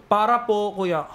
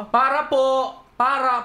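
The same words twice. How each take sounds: First: Mild retold call to a driver; polite call out. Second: High, insistent retold call. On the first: Passenger asking the jeep driver to stop, politely calling. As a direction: ask the driver to stop, lightly. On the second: Passenger ignored by the jeep driver, calling out insistently. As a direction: call higher to be noticed.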